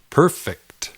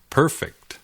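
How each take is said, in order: First: The stress is on the first syllable. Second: The same.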